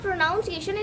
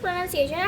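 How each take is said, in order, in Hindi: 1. दूसरा अक्षर 'nown' जैसा सुनाई देता है। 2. दूसरा अक्षर 'nun' जैसा सुनाई देता है। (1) "it is not" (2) "it is"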